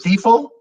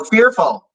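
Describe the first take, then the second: First: "Fearful?" echoed high and loud as an unknown word, first sound blurred toward "thifful"; puzzled repeat. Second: "fearful" said clearly as "feer-ful" once understood; recognising the word. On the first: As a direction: ask back "Fearful?" not knowing the word. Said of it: "I don't know that word". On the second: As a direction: land "fearful" with relief, clear f and r. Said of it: "It's the accent". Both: Real, not acted.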